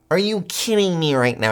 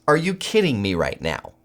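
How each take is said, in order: First: Higher, incredulous repeat of the question; really can't believe it, go up on it; pitched-up disbelief. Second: Said in the usual way. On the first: Real, not acted.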